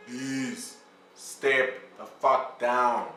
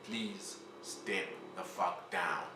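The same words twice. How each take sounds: First: Slow, stretched out, each word hit hard; drawn-out plea. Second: Softer, slow, almost pleading; the second ask, hushed and drawn out; quiet slow plea. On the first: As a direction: drag it out to make it land. Begging Zuma to resign. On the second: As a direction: say it low and weary, like a last request. Repeated plea after begging. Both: Acted.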